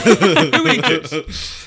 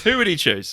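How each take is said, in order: First: High, slow question broken by laughter; laughing reread. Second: Said in the usual way. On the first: Real, not acted. Host laughing at own wording, slow and high. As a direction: laugh through the reworded question. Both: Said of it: "that was so badly worded".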